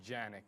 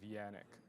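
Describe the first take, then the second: First: The name begins with a J sound. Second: The name begins with a Y sound. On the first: This is how people would misread the name. The speaker calls it wrong. "there'd be a J and people would call me Janik" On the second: This is the name's intended pronunciation. The speaker calls it right. "instead of Yannick"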